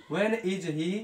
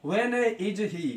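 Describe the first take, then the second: First: Said in the usual way. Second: Slow dictation. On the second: Shown as a demonstration. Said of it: "teacher dictating".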